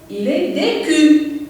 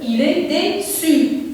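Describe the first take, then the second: First: The middle consonant of déçu sounds like k. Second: The middle consonant of déçu sounds like s. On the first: The speaker calls it wrong. "ça donne le son que" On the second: The speaker calls it right. "je dois ajouter une petite cédille pour avoir le son se"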